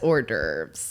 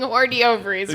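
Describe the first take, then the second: First: It is said the French way, 'or-durves'. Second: It is sounded out from the spelling. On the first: The speaker calls it right. "that's hors d'oeuvres" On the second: The speaker calls it wrong. "I was either going to mispronounce it"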